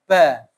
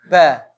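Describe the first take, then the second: The two takes are said the same way.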